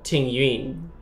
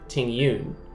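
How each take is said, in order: First: The name is said with Chinese pronunciation. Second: The name is said with English pronunciation. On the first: This is how a Chinese speaker says the name. "She said that this character is called Ting Yun" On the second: This is how the English dub says the name. "the characters in the English dub call her Ting Yun"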